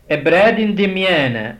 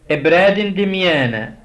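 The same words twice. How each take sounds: The two takes are said the same way.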